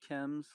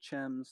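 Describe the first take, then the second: First: The name begins with a hard K sound. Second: The name begins with a CH sound. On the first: The speaker calls it right. "It's pronounced Chems, like chemical" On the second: The speaker calls it wrong. "Chems, like it looks, C H E M S"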